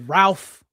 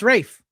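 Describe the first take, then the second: First: The name is said with an L sound. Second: The name is said without an L sound. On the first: The speaker calls it wrong. "Most people say Ralph" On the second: The speaker calls it right. "but it's Rafe"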